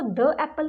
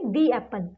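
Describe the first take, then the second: First: The word 'the' has a short 'thuh' vowel. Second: The word 'the' has a long 'thee' vowel. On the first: The speaker calls it wrong. "हम इसको द एप्पल नहीं बोलेंगे" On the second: The speaker calls it right. "हम बोलेंगे दी एप्पल"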